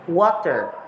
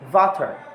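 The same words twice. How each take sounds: First: It starts with a plain W sound. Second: It starts with a V-like sound.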